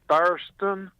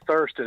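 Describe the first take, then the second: First: It is said in a put-on Texan accent. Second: It is said in a plain, non-Texan accent. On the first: This is how it is said in Texas. "They say Thurston" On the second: This is how it is not said in Texas. "They don't say Thurston in Texas"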